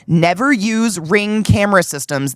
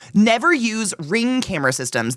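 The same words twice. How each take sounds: First: It is said noticeably louder than normal speech. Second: It is said at a normal speaking volume.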